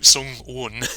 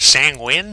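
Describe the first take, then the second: First: The name is said with its intended vowel sounds. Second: The name is said with altered vowel sounds. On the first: This is how the name is supposed to sound. The speaker calls it right. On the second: This is how other people get the name wrong. The speaker calls it wrong. "constantly mispronounce it"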